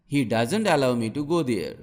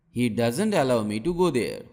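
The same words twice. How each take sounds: The two takes are said the same way.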